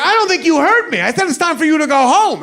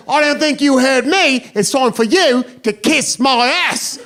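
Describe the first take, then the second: First: High-pitched, insistent American comeback; acting out a worked-up warning. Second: High, defiant drunk British mimicry; mock British pub-brawler comeback; British accent. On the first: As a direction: firmly repeat yourself, voice pitched up. Repeats his warning to the drunk. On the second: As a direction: parrot it back in a put-on British accent, dragging out the ending. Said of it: "cussed at in that accent".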